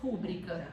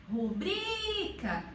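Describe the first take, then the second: First: "rúbrica" stressed on the first syllable. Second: "rubrica" with a long, stretched BRI; stress on BRI. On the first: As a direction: say RÚ-bri-ca for "rúbrica", ending low. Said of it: "pronunciar como". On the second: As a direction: hold the middle syllable of "rubrica", ru-BRIII-ca. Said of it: "A sílaba tônica dela é". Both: Shown as a demonstration.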